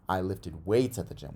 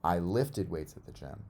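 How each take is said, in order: First: The stress falls on the word weights. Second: The stress falls on the word lifted. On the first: It tells what was lifted. "What'd you lift at the gym?" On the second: It tells what was done with the weights. "I didn't throw them or do anything else with them. I lifted them"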